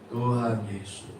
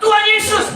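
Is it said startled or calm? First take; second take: calm; startled. First: It is said gently and calmly. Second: It is said loudly, as if startled.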